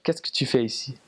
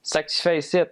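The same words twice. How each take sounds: First: Neat, proper France French accent. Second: Higher, run-together Quebecois accent; Quebec French. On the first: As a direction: demonstrate textbook French of France. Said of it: "Very, very proper". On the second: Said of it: "it sounds more like". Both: Shown as a demonstration.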